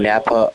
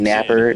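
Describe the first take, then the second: First: The name ends in a plain 'a' sound. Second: The name ends in an 'er' sound. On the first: This is the usual name. "if you went to" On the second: This is how a Bostonian would say it. "it'd be"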